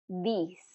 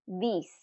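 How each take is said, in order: Both takes have the same delivery.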